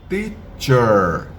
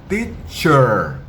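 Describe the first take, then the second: Both takes have the same delivery.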